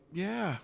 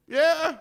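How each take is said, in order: First: Said in the usual way. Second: Much higher and louder yeah; hammed-up eager yeah; overeager agreement. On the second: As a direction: push the yeah up with forced enthusiasm. Awkward agreeing.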